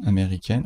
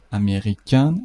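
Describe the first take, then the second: First: امریکن with a pronounced final n; French feminine form. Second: امریکن with nasal final vowel, no n; French masculine form. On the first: Teacher repeats the feminine for learners, امریکن with sounded n. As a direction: say امریکن ending firmly in "ken". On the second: Teacher repeats the masculine for learners, امریکن with silent n. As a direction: say امریکن rising into an open nasal ending. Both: Shown as a demonstration.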